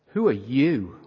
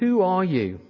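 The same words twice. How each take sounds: First: The question is asked in a challenging, accusing tone. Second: The question is asked in a plain, neutral tone.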